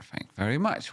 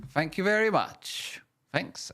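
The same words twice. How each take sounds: First: Said in the usual way. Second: Much higher, goofy put-on thanks; high silly voice. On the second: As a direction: squeak out the thanks playfully.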